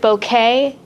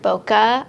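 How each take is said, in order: First: It sounds like the flower word bouquet. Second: It is said as bo-keh, unlike bouquet. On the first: "I heard bouquet" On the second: "I've heard bokeh. I like bokeh better"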